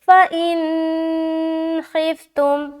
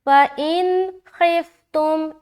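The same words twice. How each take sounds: First: The n is held and lingered on. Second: The n is released quickly without lingering. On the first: The speaker calls it wrong. "अगर कोई यहाँ पर पढ़ दे इन खिफ्तुम तो गलती हो गया" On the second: The speaker calls it right. "इन इन नून जाहिर हो रही है ना, इन इन अब निकल जाना है"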